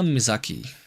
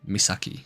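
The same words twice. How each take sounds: First: The middle consonant is a buzzing Z sound. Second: The middle consonant is a hissing S sound. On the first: The speaker calls it wrong. "I don't know why I said that with a Z sound" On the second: The speaker calls it right. "There we go"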